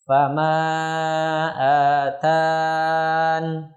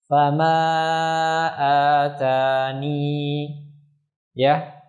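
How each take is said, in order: First: The ya is dropped, ending on n. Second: The ya is kept at the stop. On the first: "dibaca dengan membuang huruf ya dan waqaf pada huruf nun" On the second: "dibaca dengan menetapkan ya ketika waqaf"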